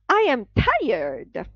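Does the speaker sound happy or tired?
happy. The voice sounds cheerful and upbeat. The speaker does not really seem tired. The speaker calls it wrong. "you sound pretty much, you know, happy with the fact that you're tired"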